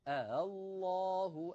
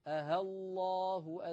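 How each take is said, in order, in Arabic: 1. الهمزة الثانية مسهّلة، بين الهمزة المحققة وحرف المد. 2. الهمزة الثانية تُبدل بصوت الهاء. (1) "أسهل همزة مفتوحة فأنطقها بين الهمزة والألف هكذا" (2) "إن فعلت ذلك أكون قد أبدلت الهمزة الثانية هاء"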